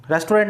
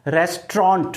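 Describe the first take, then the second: First: रेस्टोरेंट as res-to-rent; रेस्टोरेंट in three full syllables; wrong pronunciation. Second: रेस्टोरेंट as RES-tront, falling; रेस्टोरेंट in two syllables; correct pronunciation. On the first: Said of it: "रेस्टोरेंट नहीं". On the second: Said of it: "pronunciation क्या होगा?". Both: Shown as a demonstration.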